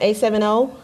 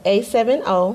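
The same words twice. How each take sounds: First: It is said at normal, quicker speed. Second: It is said slowly and carefully.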